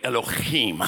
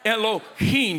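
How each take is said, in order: First: It is said throaty, like a Hebrew speaker. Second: It is said plainly, without a throaty sound.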